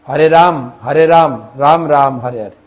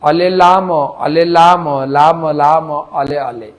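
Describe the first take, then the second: First: The r sounds are pronounced as r. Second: The r sounds are pronounced as l.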